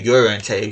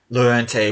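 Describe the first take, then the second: First: The name begins with a Y sound. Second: The name begins with an L sound. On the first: The speaker calls it right. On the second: The speaker calls it wrong.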